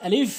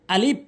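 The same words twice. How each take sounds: First: আলিফ with a hissing final f; correct pronunciation. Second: আলিফ closed with a b sound; wrong pronunciation. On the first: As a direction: let the f of আলিফ run on. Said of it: "এর সঠিক উচ্চারণ হচ্ছে". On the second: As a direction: end আলিফ on shut lips, like "alib". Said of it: "ভুল উচ্চারণ". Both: Shown as a demonstration.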